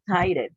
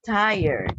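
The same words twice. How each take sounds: First: "tired" misread with a separate final syllable, "tie-red"; wrong pronunciation. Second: "tired" as "TIE-erd", ending in r plus d; correct pronunciation. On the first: Teacher showing students what not to say, "tired" as "tie-red". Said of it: "We don't say". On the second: Teacher modelling the word for students, "tired" as "tie-yerd". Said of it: "Okay, we say". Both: Shown as a demonstration.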